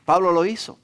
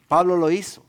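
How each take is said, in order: Both takes have the same delivery.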